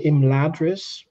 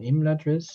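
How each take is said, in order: First: Imladris as the presenter says it; clip's pronunciation. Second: Imladris in the expected form; expected pronunciation. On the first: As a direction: quote the presenter's version of Imladris, set against the other. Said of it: "they say Imladris rather than Imladris". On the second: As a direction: give Imladris as the contrasting, expected version. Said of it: "rather than Imladris". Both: Shown as a demonstration.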